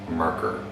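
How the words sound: It is said with an American pronunciation. "the typical American pronunciation is"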